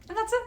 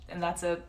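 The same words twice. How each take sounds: First: Squeaky repeat. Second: Said in the usual way. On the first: Shown as a demonstration. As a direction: jump much higher on a mock squeak. Repeats phrase for effect.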